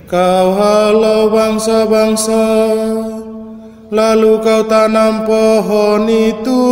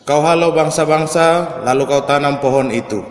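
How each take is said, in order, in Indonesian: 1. Ada jeda yang jelas di koma. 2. Koma hanya ditandai sedikit oleh intonasi. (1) "Itu berhenti. Koma dijadikan sebagai tempat berhenti. Bukan begitu kalau koma" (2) "hanya sedikit memberi tanda dalam intonasi"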